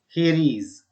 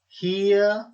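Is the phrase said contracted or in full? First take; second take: full; contracted. First: Both words are said separately in full. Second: The words are joined into one contracted syllable.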